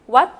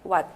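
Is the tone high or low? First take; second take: high; low. First: The word is said on a high tone. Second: The word is said on a low tone. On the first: It means a temple. "삼성으로 발음을 했었죠" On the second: It means a cold. "왓 일성으로 변하면서"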